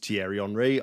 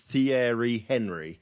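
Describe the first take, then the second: First: Henry is not said the way it's spelled. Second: Henry is said just the way it's spelled. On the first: The speaker calls it right. "I had no idea that Thierry Henry is Thierry Henry" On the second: The speaker calls it wrong. "I pronounced it as Thierry Henry"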